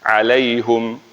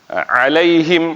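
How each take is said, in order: First: The vowel after the h is u. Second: The vowel after the h is i. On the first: This is the reading of two particular reciters. "Itu mereka baca dengan hum" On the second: This is the reading of most reciters. "bukan him"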